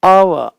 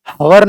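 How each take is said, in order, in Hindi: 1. इस शब्द की शुरुआत स्वर ध्वनि से होती है। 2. इस शब्द की शुरुआत h ध्वनि से होती है। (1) "एच का उच्चारण नहीं होता" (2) "नहीं"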